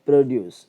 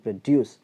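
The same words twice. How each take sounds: First: The stress is on the first syllable. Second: The stress is on the second syllable. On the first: It means things grown by farming. "With എ stress on the first syllable is എ noun" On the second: It means to make or create. "രണ്ടാമത്തെ സിലബിളിൻ്റെ തുടക്കത്തിൽ"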